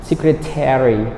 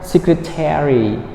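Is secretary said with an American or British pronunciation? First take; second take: American; American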